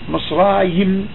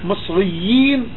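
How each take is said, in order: First: The vowel is kept short. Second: The vowel is held long. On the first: "יי קצרה" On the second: "ארוכה"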